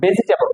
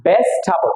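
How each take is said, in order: First: ভেজিটেবল as "be-si-te-bol"; common mispronunciation. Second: ভেজিটেবল as "bes-thabol"; corrected pronunciation. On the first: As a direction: say ভেজিটেবল with every syllable and plain t. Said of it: "আমরা বলি ভেজিটেবল". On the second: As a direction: say ভেজিটেবল short, "BES-tha-bol", aspirated th. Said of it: "এটা হচ্ছে কি?". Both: Shown as a demonstration.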